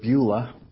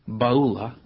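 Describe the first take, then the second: First: The first syllable sounds like 'byoo'. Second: The first syllable sounds like 'bah'. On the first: This is the usual way people say it. The speaker calls it wrong. "we usually pronounce this word" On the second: This is the original Hebrew way to say it. The speaker calls it right. "but it's"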